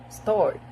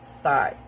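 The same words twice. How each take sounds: First: It is said in an American accent. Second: It is said in an Australian accent. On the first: "In American" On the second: "while in Australian"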